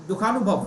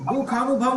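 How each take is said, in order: First: The vowels in the word are kept short. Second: A vowel in the word is drawn out long. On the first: The speaker calls it right. "ये ये बड़ा खींचना नहीं है, छोटी की मात्रा है।" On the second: The speaker calls it wrong. "दुखानुभव नहीं"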